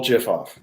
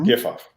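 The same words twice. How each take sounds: First: "gif" with a J sound, as jif; soft G pronunciation. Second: "gif" with a hard G, as in gift; hard G pronunciation. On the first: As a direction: start "gif" like "jet". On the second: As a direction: start "gif" like "give". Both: Shown as a demonstration. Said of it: "is it gif or gif".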